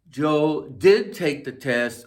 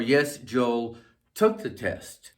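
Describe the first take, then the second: First: Slow, stress on did; emphatic did. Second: Slow, stress on took, falling; plain past. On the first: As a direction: lean on did to insist. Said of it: "Or you could say". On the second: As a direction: lean on took, simply stated. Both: Shown as a demonstration.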